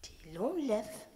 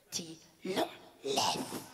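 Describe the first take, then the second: First: Very slow menacing order; slow threat. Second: Much lower, drawn-out menace; mock villain voice; deep threat. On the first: Retold or imitated. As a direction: spell out the order slowly. The lady's threat. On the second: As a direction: drop the voice low and menacing. The lady's threat deepens.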